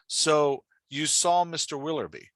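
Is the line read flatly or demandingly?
flatly. It is read flatly, without emotion.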